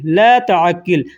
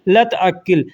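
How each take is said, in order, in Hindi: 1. यह धीरे बोला गया है, हर शब्द अलग-अलग। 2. यह जल्दी बोला गया है, शब्द आपस में मिल जाते हैं।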